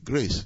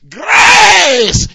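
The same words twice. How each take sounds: First: The word is said quietly, without shouting. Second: The word is shouted loudly. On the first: It is a dignified, restrained way of speaking. The speaker calls it wrong. "No, but that's not shouting" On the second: It obeys the command to shout. The speaker calls it right. "I obey your word and I shout grace"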